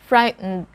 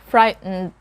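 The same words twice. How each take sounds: No difference in how they are said.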